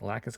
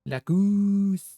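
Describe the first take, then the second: First: The second vowel is short and plain. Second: The second vowel is a long oo sound. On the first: "that is the original English" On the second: "It sounds more like goose, ... He's like drawing out the O"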